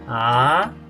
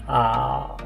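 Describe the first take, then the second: First: The pitch rises up high. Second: The pitch goes low without rising again. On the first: "El segundo tono es un tono ascendente. Sube alto" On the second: "solamente bajando al grave sin ascender"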